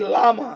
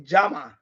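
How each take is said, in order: First: The word starts with a plain L sound. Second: The word starts with a J-like sound. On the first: The speaker calls it wrong. "You don't say llama" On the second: The speaker calls it right. "you say Jama"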